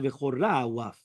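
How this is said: The vowel after ch is oh. It sounds meaningless but not blasphemous. "they would sound like v'chora waf"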